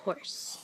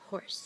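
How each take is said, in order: First: Whispered. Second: Said in the usual way. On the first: Shown as a demonstration. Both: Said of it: "Can you say horse?".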